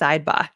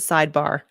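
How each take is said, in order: First: It is said in a Boston accent. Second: It is said in a standard American accent. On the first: "I have to say it sidebar. I love it. I love a Boston accent" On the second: "I refuse to pronounce it sidebar"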